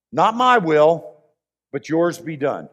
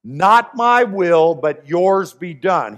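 First: Slow, then fading softer; Jesus in the garden, quietly yielding; quiet surrender. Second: Slow, weighty surrender; Jesus yielding to the Father, slow and solemn; solemn slow quote. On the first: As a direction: let yours be done fall away gently. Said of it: "he pauses and he says". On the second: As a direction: draw out each word with a louder not my will. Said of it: "what does he say?". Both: Acted.

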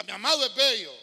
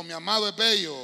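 First: Louder, full-voiced, as if you mean it; said with conviction. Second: Plain. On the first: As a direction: proclaim it as true. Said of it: "dígalo como que es cierto". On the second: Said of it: "Diga conmigo". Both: Shown as a demonstration.

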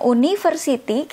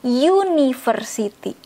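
First: "university" starting with a bare "oo", no y glide; "university" as written, opening "oo-"; read as spelled. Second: "university" opening on a long "yoo"; "university" as it is read, with stretched "yoo-"; correct y onset. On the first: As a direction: say "university" letter by letter sound, "oo-niversity". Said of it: "walaupun ditulisnya university, kita bacanya university". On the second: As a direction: say "university" with a y glide first, "yoo-niversity". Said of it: "kita bacanya university". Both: Shown as a demonstration.

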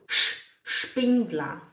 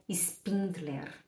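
First: Spindler lento, começando com chiado SH. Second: Spindler com S puro, baixo e lento; S errado em Spindler. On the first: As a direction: destaque o SH e diga “Shpindla”. (Spindler com “x” inicial) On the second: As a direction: mostre o erro: Spindler começando “ispín”. (Spindler com “s” sem chiado) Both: Shown as a demonstration. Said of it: "meu nome não é Spindler".

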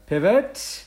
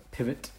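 First: Drawn-out loud, high-rising call; mock yell. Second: Said in the usual way. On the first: Podcaster retelling a change of dinner plans, mock yell. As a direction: stretch the word out in a playful yell. Echoes the word as comic shout.

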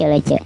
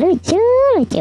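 First: Said in the usual way. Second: Squeaky high voice on "lucu"; high pitch effect. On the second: Shown as a demonstration. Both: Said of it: "jenaka-jenaka sekali".

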